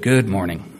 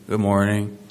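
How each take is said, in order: First: It is said brightly, with real energy. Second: It is said tiredly, with little energy.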